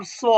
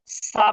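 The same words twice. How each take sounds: First: স as a full, heavy "swo" with rounded vowel. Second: সা as a thin hissed s with an open "aa" vowel. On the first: Teacher contrasting the letters for pupils, heavy rounded sound. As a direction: round স into "swo", not "saa". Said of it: "অনেকটা বাংলা চয়ের মতো হুবহু না". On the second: Teacher recalling the earlier letter for pupils, thin open sound. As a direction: keep সা light, open "aa", not rounded. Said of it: "সদ জবর কিন্তু সা না". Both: Shown as a demonstration.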